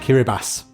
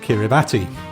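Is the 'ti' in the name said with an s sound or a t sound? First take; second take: s sound; t sound. First: The 'ti' is said with an s sound. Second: The 'ti' is said with a t sound. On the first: The speaker calls it right. "T I is pronounced S. So, in fact, it's called Kiribati" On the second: The speaker calls it wrong. "it is not called Kiribati"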